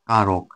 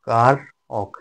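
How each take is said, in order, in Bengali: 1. শব্দটি স্বাভাবিক গতিতে মসৃণভাবে উচ্চারিত হয়। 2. শব্দটি ধীরে উচ্চারিত হয়, কার-এর পরে একটি বিরতি সহ।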